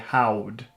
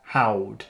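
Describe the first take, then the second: First: The R sound is weak and childlike. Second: The same.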